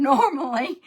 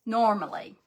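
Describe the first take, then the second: First: Laughing, louder self-correction. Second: Said in the usual way. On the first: Real, not acted. Host owns up to being scatterbrained, laughing. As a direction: giggle through the word normally, admitting it. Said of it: "I won't say never". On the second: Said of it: "I'm normally not this scatterbrained".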